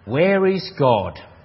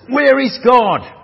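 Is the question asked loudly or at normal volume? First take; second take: normal; loudly. First: It is asked at normal volume. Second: It is asked loudly in a booming voice.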